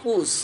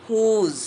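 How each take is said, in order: First: "whose" ending in a hissed s, "hoos"; wrong pronunciation. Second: "whose" with a voiced ending, "hooz"; correct pronunciation. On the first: Teacher shows learners the mistake, "whose" as "hoos". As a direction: say "whose" short, with s for z. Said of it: "এটা ভুল". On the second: Teacher corrects the common mistake, careful "whose" as "hooz". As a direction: draw out "whose" and buzz the final z. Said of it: "এর সঠিক উচ্চারণ হচ্ছে". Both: Shown as a demonstration.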